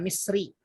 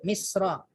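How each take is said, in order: First: The word ends with an 'i' vowel. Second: The word ends with an 'a' vowel. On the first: The speaker calls it wrong. "Dia nggak bisa Misri" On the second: The speaker calls it right. "Ya, Misra"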